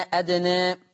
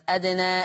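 First: أدنى with the final "aa" tilted toward "ee"; fronted last vowel on أدنى; taqlil. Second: أدنى ending in a full open "aa"; long open last vowel on أدنى; open fath. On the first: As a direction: say أدنى as "adnae". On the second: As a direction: say أدنى as "adnaa". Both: Shown as a demonstration. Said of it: "أي فيه الفتح والتقليل".

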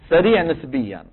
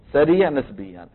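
Both takes have the same delivery.

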